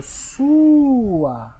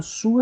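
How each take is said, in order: First: Sua drawn out long and slow, a bit louder; said slowly and stretched. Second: Sua said quickly in passing; just say sua at normal speed; quick normal take. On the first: Teacher demonstrating slow spoken separation. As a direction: stretch sua so the split is heard. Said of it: "falar ela pausadamente ou de forma bem alongada". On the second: Teacher repeating the word quickly. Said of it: "Então na hora que eu falo sua". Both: Shown as a demonstration.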